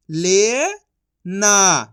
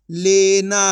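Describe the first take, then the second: First: ले, long pause, then ना; syllable by syllable. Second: Said in the usual way. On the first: Shown as a demonstration. Teacher sounding out for learners, syllable by syllable. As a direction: stretch ले upward, stop, then ना. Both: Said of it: "तो मिलके बन जाएगा".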